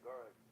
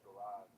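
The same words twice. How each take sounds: First: It is said with a British pronunciation. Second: It is said with an American pronunciation. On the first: "I got plenty of friends from the U K. Uh, and they say garage" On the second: "They don't say garage"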